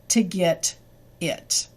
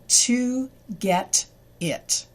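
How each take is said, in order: First: The words are reduced and run together. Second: Each word is said fully and carefully. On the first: "so far we have" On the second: "This is slow English or written English"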